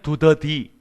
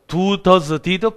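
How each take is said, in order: First: The three words are said quickly and run together. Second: The three words are said slowly and separately.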